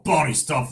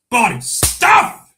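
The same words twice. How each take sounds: First: Said in the usual way. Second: Loud, high, drawn-out cheer; hammed-up shout. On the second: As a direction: belt out "stuff" long and high. Hammed-up repeat of a catchphrase.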